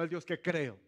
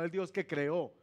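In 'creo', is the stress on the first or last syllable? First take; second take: first; last. First: The stress is on the first syllable of creo. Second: The stress is on the last syllable of creo. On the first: The God I believe in. "no le puse tilde por eso" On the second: The God who created.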